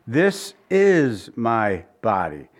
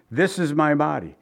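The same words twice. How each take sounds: First: Slow, "is" drawn out and weighted; slow down and lean on "is"; stress on is. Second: "This" pushed out ahead of the rest; stress on this. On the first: Preacher showing Calvin's reading, slow stress on "is". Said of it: "Calvin put the emphasis on is". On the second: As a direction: lean on the word "This", let the rest fall away. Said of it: "they emphasize the this". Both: Shown as a demonstration.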